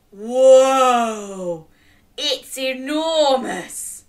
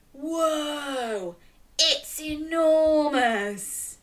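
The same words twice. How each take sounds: First: Loud whoa, slow enormous; amazed. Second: Quiet whoa, slow enormous; hushed awe at its size; softer amazed. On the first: Modelling the line for children, awed. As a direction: show awe at its size. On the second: Repeating the line with children, hushed awe. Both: Shown as a demonstration. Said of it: "Can you say".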